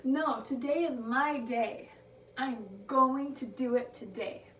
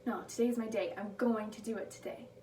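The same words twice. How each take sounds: First: Triumphant shout. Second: Firm affirmation. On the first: Skier declaring to the mountains, triumphant and loud. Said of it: "throws her hands up and says". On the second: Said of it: "she just replaces it with". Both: Retold or imitated.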